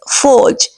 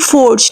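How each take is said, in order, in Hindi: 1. शब्द में R ध्वनि नहीं बोली जाती। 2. शब्द में R ध्वनि का उच्चारण होता है। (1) "we have to keep it silent here" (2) "The word will not be forged, no"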